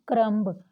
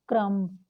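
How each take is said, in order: First: क्रम्ब with an audible final B; B sounded. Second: क्रम्ब ending on a held M; silent B. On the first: Teacher showing students the spelling, क्रम्ब with B sounded. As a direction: say क्रम्ब as "krum-b", releasing the B. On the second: Teacher correcting for students, क्रम्ब with silent B. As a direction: say क्रम्ब as "krum", no B. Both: Shown as a demonstration. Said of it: "ब की sound नहीं आती".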